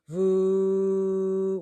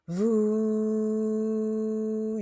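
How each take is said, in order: First: The sound is at a lower pitch. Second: The sound is at a higher pitch. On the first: "You could do it lower" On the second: "the sound is like this"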